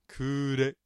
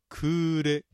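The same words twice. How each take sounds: The two takes are said the same way.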